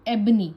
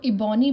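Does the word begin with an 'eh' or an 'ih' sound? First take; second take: eh; ih. First: The word begins with an 'eh' sound. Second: The word begins with an 'ih' sound. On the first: The speaker calls it right. "तो एबनी" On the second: The speaker calls it wrong. "अगर आप इसको इबॉनी पढ़ेंगे तो आप इसको कभी भी सही नहीं लिख पाएंगे"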